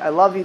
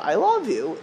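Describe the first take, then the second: First: It is said mechanically, without feeling. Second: It is said warmly, with real feeling.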